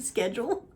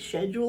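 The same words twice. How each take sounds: First: The word is said with an American pronunciation. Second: The word is said with a British pronunciation. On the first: "instead of schedule" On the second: "I wanted to say schedule ... my brain is British today"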